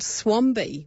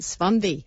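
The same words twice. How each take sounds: First: It is said with a plain English accent. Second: It is said with a German accent.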